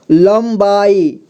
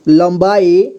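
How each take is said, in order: First: लंबाई stretched slowly as lam-baa-ee; syllable-by-syllable reading. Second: Said in the usual way. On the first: Shown as a demonstration. Teacher showing learners how to join letters, लंबाई slowly in syllables. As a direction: sound out लंबाई one slow syllable at a time. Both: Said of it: "जोड़ जोड़ करके पढ़ना है".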